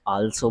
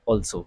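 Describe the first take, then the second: First: The word begins with an 'ah' vowel. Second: The word begins with an 'aw' vowel. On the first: The speaker calls it wrong. "कुछ लोग आल्सो बोल देते हैं" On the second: The speaker calls it right. "सही उच्चारण जो है वो है ऑल्सो"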